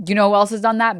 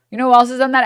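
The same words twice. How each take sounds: First: Said in the usual way. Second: Higher and louder, pressing the question; louder rhetorical jab. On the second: Real, not acted. Streamer jabbing at the guest, louder on the repeat. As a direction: punch it up on the repeat.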